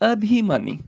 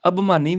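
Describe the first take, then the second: First: ਅਭਿਮਾਨੀ with a clear bhi; higher ਅਭਿਮਾਨੀ, sounding out a-bhi-maani; sounded vowel. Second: ਅਭਿਮਾਨੀ as ab-maani; wrong dropped vowel. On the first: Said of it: "ਪੱਬੇ ਨੂੰ ਸਿਆਰੀ ਹੈਗੀ ਆ". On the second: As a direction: drop the i from the middle of ਅਭਿਮਾਨੀ. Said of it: "ਅਭਿਮਾਨੀ ਵੀ ਨਹੀਂ". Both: Shown as a demonstration.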